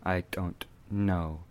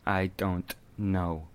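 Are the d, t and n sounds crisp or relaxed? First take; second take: crisp; crisp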